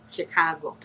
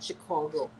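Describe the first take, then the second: First: "Chicago" with an open "ah", shi-KAH-go; "Chicago" with open middle vowel; local Chicago pronunciation. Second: "Chicago" with a rounded "aw", shi-CAW-go; the non-local "Chicago", vowel rounded; outsider's pronunciation. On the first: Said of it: "That's the way to say Chicago". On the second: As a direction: say "Chicago" softly with an "aw" middle. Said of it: "You know, not Chicago". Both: Shown as a demonstration.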